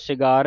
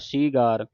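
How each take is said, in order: First: The first vowel is short. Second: The first vowel is long. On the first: The speaker calls it wrong. "ਸਿਗਾਰ ਨਹੀਂ ਕਹਿ ਦੇਣਾ" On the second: The speaker calls it right.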